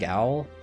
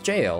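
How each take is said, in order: First: The word sounds like 'gal'. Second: The word sounds like 'jail'. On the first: The speaker calls it wrong. "I've been saying Gal" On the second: The speaker calls it right. "Yeah, it's jail"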